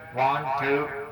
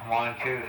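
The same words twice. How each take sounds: First: The voice has an echoing reverb tail. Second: The voice sounds plain with no added effect. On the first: "reverb repeat works good" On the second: "we're back to regular now"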